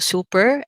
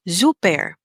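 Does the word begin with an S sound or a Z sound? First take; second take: S; Z. First: The word begins with an S sound. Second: The word begins with a Z sound. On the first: This is the English pronunciation. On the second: This is the German pronunciation.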